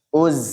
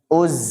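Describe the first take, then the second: Both takes have the same delivery.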